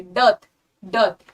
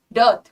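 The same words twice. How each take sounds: First: डर्ट said slowly with the R left silent, like "dut"; slow model of डर्ट without the R; correct pronunciation. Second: डर्ट with the R rolled in clearly, the way not to say it; डर्ट said with a full R; wrong pronunciation. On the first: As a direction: drop the R in डर्ट, say it slow and clear. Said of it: "R is kind of silent". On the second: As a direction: sound the R in डर्ट on purpose as the mistake. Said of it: "डर्ट नहीं बोलेंगे". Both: Shown as a demonstration.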